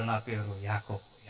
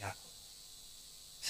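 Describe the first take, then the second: First: Slow, hushed, much lower and softer; tearful confession. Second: Breathy whisper, very slow, fading out; the name barely escapes through tears; whispered tearful name. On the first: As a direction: admit it through mock tears. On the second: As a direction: Jacob whispering his name, broken. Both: Retold or imitated. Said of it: "అప్పుడు ఏడుస్తా అన్నాడు".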